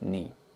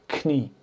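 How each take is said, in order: First: The word starts with no K sound. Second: The word starts with a sounded K. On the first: The speaker calls it right. "the K is not pronounced" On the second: The speaker calls it wrong. "not knie"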